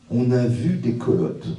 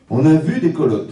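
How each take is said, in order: First: Slow, weighty. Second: Louder, stressing vu; emphatic restatement. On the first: Rabbi slowly reading the verse to the congregation. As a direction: draw out each word slowly. Rabbi quoting Torah text. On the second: Rabbi emphatically repeating the verse to the congregation. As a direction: drive the point home. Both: Shown as a demonstration.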